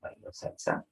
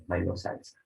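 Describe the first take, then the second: First: Bailó salsa as a soft question, rising on salsa; Bailó salsa with a quiet ascending tune. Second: Bailó salsa as a statement, falling on salsa; Bailó salsa with a descending, declarative tune. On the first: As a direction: lift the end of salsa, softly. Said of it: "Tono ascendente". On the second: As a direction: let salsa drop at the end of Bailó salsa. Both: Shown as a demonstration.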